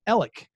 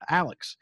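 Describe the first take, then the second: First: The name begins with an 'e' vowel, like Ellick. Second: The name begins with an 'a' vowel, like Alex. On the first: This is how the family says the name. The speaker calls it right. "in my family, it's pronounced Ellick, like E-L-L-I-C-K" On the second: This is how most people say the name. The speaker calls it wrong. "I think the world pronounces that Alex"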